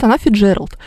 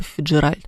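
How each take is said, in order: First: "Фиджеральд" stressed on the middle Е, ДЖЕ. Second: "Фиджеральд" stressed on the final syllable РАЛЬД; easier stress variant. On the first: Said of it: "ударение на букву". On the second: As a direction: let the stress fall on the end of "Фиджеральд". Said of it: "всем удобнее говорить было бы". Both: Shown as a demonstration.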